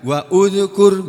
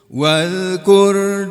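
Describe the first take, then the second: First: Said as two parts with a separate 'u' vowel. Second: Said as one joined word without the 'u' vowel. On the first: The speaker calls it wrong. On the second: The speaker calls it right.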